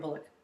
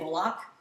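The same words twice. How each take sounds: First: The name is said with a plain, soft sound. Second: The name is said with a harsh sound. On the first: The speaker calls it right. "It's probably like Sandra Bullock" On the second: The speaker calls it wrong. "I also say her name really harsh"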